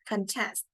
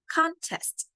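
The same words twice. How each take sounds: First: The stress is on the second syllable. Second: The stress is on the first syllable. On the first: It is a verb. "contest is a verb, so it is stressed on the second syllable" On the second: It is a noun. "on the first syllable"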